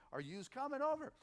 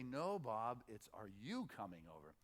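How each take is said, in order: First: "yous" said as a plural you, higher; lightly mock the wrong "yous coming over". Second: Corrects to "you", lower and softer. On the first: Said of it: "his head would go". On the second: Retold or imitated. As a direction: gently model the right "are you coming over". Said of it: "she would say".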